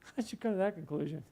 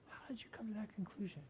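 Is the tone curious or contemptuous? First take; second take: contemptuous; curious. First: It is asked with a scornful, dismissive tone. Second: It is asked with genuine, curious interest.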